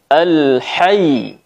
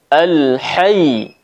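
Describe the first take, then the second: Both takes have the same delivery.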